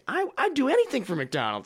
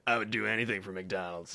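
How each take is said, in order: First: It sounds cheerful and really happy. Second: It sounds careless and indifferent.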